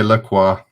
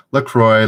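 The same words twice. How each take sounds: First: La Croix said as "luh-KWAH"; French-style pronunciation. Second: LaCroix said as "luh-KROY", loud; anglicised pronunciation. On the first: Host offering both brand pronunciations, French-style one. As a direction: end La Croix on "kwah", no r sound. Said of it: "It's pronounced". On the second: Host offering both brand pronunciations, anglicised one. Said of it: "La Croix or LaCroix". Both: Shown as a demonstration.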